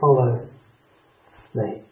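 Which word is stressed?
Follow. The stress falls on the word follow. The act of following, which involves trust, is what matters.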